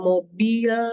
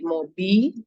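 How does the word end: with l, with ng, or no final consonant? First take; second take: l; no consonant. First: The word ends with an l sound. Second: The word ends without any final consonant. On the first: The speaker calls it right. "misalnya mobil" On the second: The speaker calls it wrong. "Leh itu kemudian tidak ada, hanya menjadi mobi"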